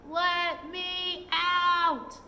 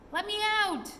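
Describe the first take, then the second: First: Slow, drawn-out shout, higher and louder; furious shout. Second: Much higher, louder repeated shout; furious shout. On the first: Trapped pixie hammering on the door, slow furious shout. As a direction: bellow it from behind a bolted door, slowly. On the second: Trapped pixie hammering on the door, higher furious shout. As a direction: shriek it again, even higher. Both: A narrator's reading. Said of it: "was shouting".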